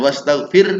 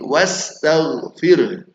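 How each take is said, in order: First: The gh and kh sounds are weakly articulated. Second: The gh and kh sounds are clearly articulated. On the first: The speaker calls it wrong. "Bukan wastaghfir" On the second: The speaker calls it right. "ghainnya dan haknya"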